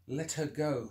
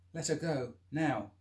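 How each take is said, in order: First: A louder, forced show of toughness; a scared man putting on a hard voice; trying to sound tough. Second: Louder, higher command; a man warning an attacker to let go; firm demand. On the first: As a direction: fake the confidence you don't feel. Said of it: "trying to sound tough and confident". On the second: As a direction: square up and order him. Confronting the attacker. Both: Acted.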